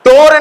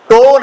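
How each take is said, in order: First: टोर with the r sounded; wrong pronunciation. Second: टोन with no r before the n; silent r. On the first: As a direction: pronounce the final r in टोर. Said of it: "टोर नहीं पढ़ना". (टोर में "र" बोलकर गलत उच्चारण) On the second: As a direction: say टोन with a long o straight into n. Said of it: "आर silent है". (टोन, बिना "र" की आवाज़ के) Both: Shown as a demonstration.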